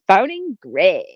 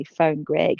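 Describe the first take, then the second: First: Excited Siri. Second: Said in the usual way. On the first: Retold or imitated. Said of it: "she sounds really excited to speak to Greg". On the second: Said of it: "I say".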